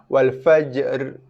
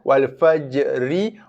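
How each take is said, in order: First: The word ends on a bare trilled r. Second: The word ends with a short i vowel. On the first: The reader stops at this word. "Kerana waqaf, ra ditukarkan kepada baris sukun" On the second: The reading continues without stopping. "Wal fajri, asal barisnya"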